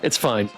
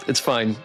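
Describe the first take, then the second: No difference in how they are said.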